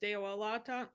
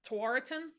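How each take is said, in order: First: The word begins with a D sound. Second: The word begins with a T sound. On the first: It is how the original language says it. The speaker calls it right. "in uh, Haudenosaunee, it's actually pronounced Dewalaton" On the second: It is an English reading of the spelling. The speaker calls it wrong. "that's like English pronunciation of those letters"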